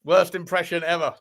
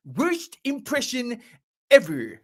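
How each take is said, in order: First: Said in the usual way. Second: Slow, high-pitched cartoon voice, drawn out; Comic Book Guy. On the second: Streamer quoting a cartoon catchphrase for viewers, Comic Book Guy impression. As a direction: pause before the last word, cartoon know-it-all style. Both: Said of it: "That was a pretty good impression of comic book guy".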